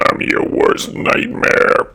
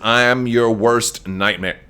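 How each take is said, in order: First: It is said in a creepy put-on character voice. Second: It is said in the speaker's natural voice.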